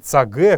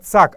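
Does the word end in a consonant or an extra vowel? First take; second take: extra vowel; consonant. First: The word ends in an extra vowel. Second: The word ends in a consonant. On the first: The speaker calls it wrong. "а не цаге, как многие сейчас произносят" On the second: The speaker calls it right. "Именно цак"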